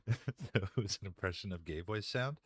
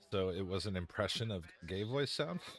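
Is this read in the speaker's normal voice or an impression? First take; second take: impression; normal voice. First: It is read in a put-on impression voice. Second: It is read in the speaker's normal voice.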